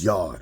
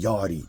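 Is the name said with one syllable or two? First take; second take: one; two. First: The name is said with one syllable. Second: The name is said with two syllables. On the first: The speaker calls it right. "it's Yard" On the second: The speaker calls it wrong. "it ain't Yardy"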